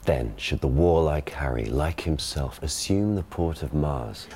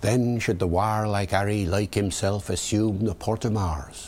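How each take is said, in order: First: Received pronunciation stage reading; modern RP Shakespeare. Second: Original pronunciation, dropped H in Harry; Early Modern English verse accent; Shakespearean original pronunciation. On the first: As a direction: classic RP verse delivery. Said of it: "Ben gives the modern pronunciation". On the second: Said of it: "David the O P". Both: Shown as a demonstration.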